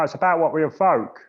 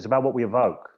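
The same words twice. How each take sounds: First: It is said expressively, with feeling. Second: It is said flatly, without feeling. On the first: The speaker calls it right. "I want it to resonate in my being" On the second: The speaker calls it wrong. "I don't say"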